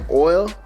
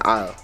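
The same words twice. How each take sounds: First: It is said in a standard accent. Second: It is said in a flat Grenadian accent.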